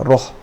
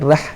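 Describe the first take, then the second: First: The R sound is thick and heavy. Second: The R sound is thin and light. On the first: The speaker calls it right. "Ra ni te tebalkan" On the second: The speaker calls it wrong. "bila rah tu salah"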